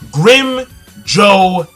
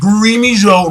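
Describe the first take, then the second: First: The first part has one syllable, 'grim'. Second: The first part has two syllables, 'gree-mee'. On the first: The speaker calls it right. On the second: The speaker calls it wrong.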